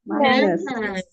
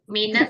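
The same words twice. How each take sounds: First: It is said with an exaggerated English pronunciation. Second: It is said with an Indonesian pronunciation. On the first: The speaker calls it right. "harus lebay" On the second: The speaker calls it wrong. "minus itu bahasa Indonesia"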